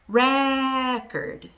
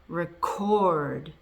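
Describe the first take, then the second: First: The stress is on the first syllable. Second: The stress is on the second syllable. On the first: It is used as a noun. "the stress is on the first syllable" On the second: It is used as a verb. "The stress is on the second syllable"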